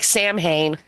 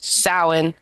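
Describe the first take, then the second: First: The word is read letter by letter as spelled. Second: The word sounds different from its spelling. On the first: The speaker calls it wrong. "It looks like Samhain" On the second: The speaker calls it right. "pronounced Samhain"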